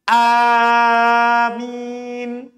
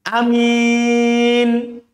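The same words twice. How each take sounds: First: The first vowel is long; the m is single. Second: The first vowel is short; the m is single. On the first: "boleh dipanjangkan A-nya, hamzanya. Mimnya tidak ditasydid" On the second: "hamzanya tidak panjang dan mimnya tidak tasydid. Hamzanya pendek"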